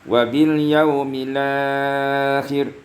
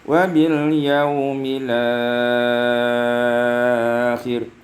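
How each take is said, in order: First: The long vowel is held for four counts. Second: The long vowel is held for six counts. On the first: "empat harakat" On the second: "isba', enam harakat"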